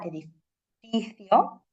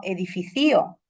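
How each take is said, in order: First: "edificio" slowly, stressed e-di-FI-cio. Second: "edificio" as e-di-fi-CÍ-o; stress on CI. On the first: Teacher showing the accented syllable, "edificio" stressed on FI. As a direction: draw out the FI in "edificio". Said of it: "cuál sería la sílaba acentuada". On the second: Teacher voicing confused students, "edificio" stressed on CI. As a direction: wrongly hit CI in "edificio". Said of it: "la sílaba ci la penúltima". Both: Shown as a demonstration.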